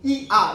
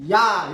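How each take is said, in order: First: Two separate vowels are said as two syllables. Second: The vowels glide together into one syllable. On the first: "최대한 빨리 해봐요. 그럼 이, 아 이렇게밖에 안 돼" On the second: "야 이렇게 발음하잖아요"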